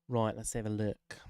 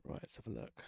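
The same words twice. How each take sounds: First: Said in the usual way. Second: Breathy whisper, much softer; whispered test line. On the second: Real, not acted. Streamer whispering a test line to check his audio. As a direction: whisper it into the mic to test the effect.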